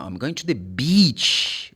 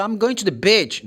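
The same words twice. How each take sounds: First: Slow, "beach" with a long ee; corrected long E. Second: Higher pitch, "beach" with a short ih, like "bitch"; wrong short vowel. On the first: Teacher corrects the mistake for learners, long-E beach. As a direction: draw out the ee in "beach". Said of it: "This is B". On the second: Teacher mimics the learner's mistake, short-vowel beach. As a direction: clip the vowel of "beach" to a lax ih. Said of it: "No, no". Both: Shown as a demonstration.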